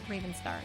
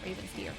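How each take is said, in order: First: The last syllable sounds like 'star'. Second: The last syllable sounds like 'steer'. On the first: The speaker calls it wrong. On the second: The speaker calls it right.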